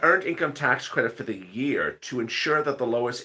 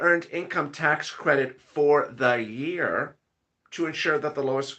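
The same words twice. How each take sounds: First: The phrase is read at a quicker, normal pace. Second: The phrase is read at a slower, deliberate pace.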